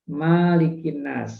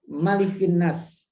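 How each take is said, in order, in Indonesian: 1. Vokal setelah m itu panjang. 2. Vokal setelah m itu pendek. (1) "nggak boleh dibaca"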